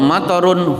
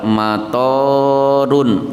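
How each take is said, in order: First: The vowel in the second syllable is short. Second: The vowel in the second syllable is long. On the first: It means rain. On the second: It means airport.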